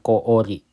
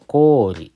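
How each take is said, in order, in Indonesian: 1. Vokalnya terbagi menjadi dua bagian. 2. Vokalnya satu bunyi panjang yang halus. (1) "bukan koori ya"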